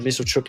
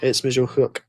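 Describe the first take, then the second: First: The last syllable starts with a 'ch' sound. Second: The last syllable starts with an 'h' sound. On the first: The speaker calls it wrong. "instead of" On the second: The speaker calls it right. "saying it with a H rather than a ch"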